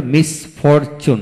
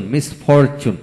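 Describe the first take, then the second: First: মিসফরচুন in separate beats; syllable by syllable. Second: Said in the usual way. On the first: Shown as a demonstration. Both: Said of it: "যে ওয়ার্ডে তিনটি syllable থাকে".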